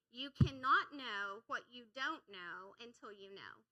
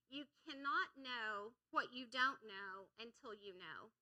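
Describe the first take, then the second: First: Slow, louder, weighty delivery; slow repeat. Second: Said in the usual way. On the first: Shown as a demonstration. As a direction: spell it out slowly and firmly. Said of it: "I'm gonna say it slow one more time". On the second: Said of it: "say it slow one more time".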